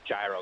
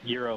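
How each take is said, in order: First: The word begins with a hard consonant sound. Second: The word begins with a soft Y sound. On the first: The speaker calls it wrong. "I of course have been saying, you know, gyro" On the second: The speaker calls it right. "So euro moving forward"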